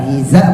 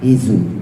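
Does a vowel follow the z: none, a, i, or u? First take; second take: a; u. First: The vowel a follows the z sound. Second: The vowel u follows the z sound. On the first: "bukan hiza" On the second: "bukan hizu"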